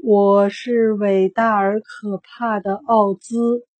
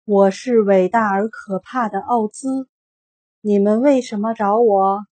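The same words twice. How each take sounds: First: Slow, shaky little man's claim; a small man faking grandeur, voice quivering; slow, timid wizard voice; trembling voice. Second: Grand, commanding wizard proclamation; a loud hint of a booming wizard; stern booming voice. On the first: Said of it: "小个子男人声音发抖地说". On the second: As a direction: announce yourself as a mighty wizard, louder. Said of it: "一个严肃的声音响起". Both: A narrator's reading.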